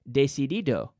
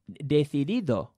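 First: Every D sound is a hard D. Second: The inner D sounds are soft. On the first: The speaker calls it wrong. "Very typical Giri" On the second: The speaker calls it right. "that's what a Spanish person would say"

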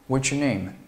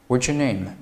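Both takes have the same delivery.

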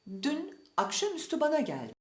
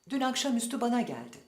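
First: A short pause separates the words, without linking. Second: The words are linked together without any pause. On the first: A key word is made to stand out. The speaker calls it right. "ulama yapmayıp kısa bir duraklama yapmalıyız" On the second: No key word stands out. The speaker calls it wrong. "bir de ulama yaparak söyleyelim"

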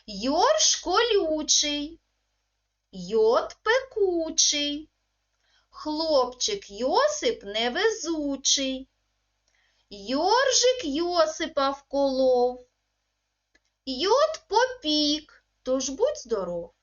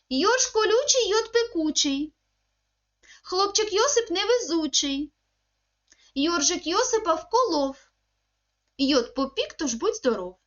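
First: It is said at a slow, careful pace. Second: It is said at the fastest pace. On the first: "я проговорюю, ви за мною" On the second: "тепер пробуємо ще швидше"

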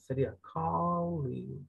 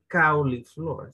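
First: The first vowel is a softer, less sharp 'aw'. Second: The first vowel is a Spanish 'ow' diphthong. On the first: The speaker calls it right. "esa A no existe. Siempre es una A como más, menos pronunciada, menos aguda" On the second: The speaker calls it wrong. "No sería"

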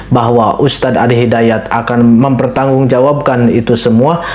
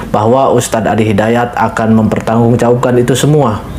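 No difference in how they are said.

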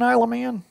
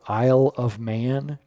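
First: It is said fast and run together. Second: It is said slowly and clearly.

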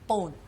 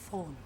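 First: The word begins with a P sound. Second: The word begins with an F sound. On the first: The speaker calls it wrong. "Lahat ng letter F ko, letter P lang ho para sa akin" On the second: The speaker calls it right. "Sabi niya, no, phone"

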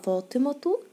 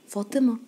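First: The word ends in a t sound. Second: The word ends in an h sound. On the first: The speaker continues into the next word. "طب لو كملت كلامي يبقى فاطمة الزهراء" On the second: The speaker stops after the word. "ما قلنا فاطمة وقفنا كده نطقناها هاء"

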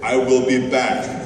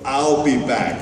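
First: The words 'I will' are said in full. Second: The words 'I will' are contracted to 'I'll'. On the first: "I always said" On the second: "no, I wrote"

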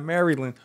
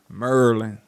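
First: It is said in a standard, non-local way. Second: It is said in a local Maryland accent. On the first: The speaker calls it wrong. "Not Maryland" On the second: The speaker calls it right. "I get excited when I hear that Maryland accent"

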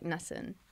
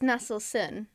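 First: The word is said with syllables dropped. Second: The word is said with all its syllables. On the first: "but you could say like Nasin" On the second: "So it's Nasılsın"

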